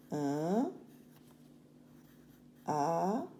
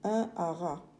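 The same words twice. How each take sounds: First: Each word set apart by long pauses; Un, pause, ara, broken up for dictation; syllable dictation. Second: Said in the usual way. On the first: Shown as a demonstration. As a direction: dictate Un and ara slowly and separately, as for children writing. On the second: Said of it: "On a A, R, A".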